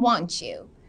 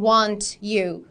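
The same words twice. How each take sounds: First: The t and y blend into a ch sound. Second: The t and y are said separately. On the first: "سریعتر و نیتیو ترش اینجوریه" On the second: "البته میتونیم هم بگیم"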